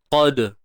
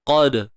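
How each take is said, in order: Both takes have the same delivery.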